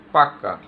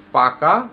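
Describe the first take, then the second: First: পাক্কা with a long held double kk, pressed hard; doubled consonant. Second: Said in the usual way. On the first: Shown as a demonstration. Teacher showing emphatic doubling to students, পাক্কা with hard double kk. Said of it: "কোনো কিছুতে জোর দেওয়ার সময়". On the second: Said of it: "তারপরে আছে দেখো পাকা".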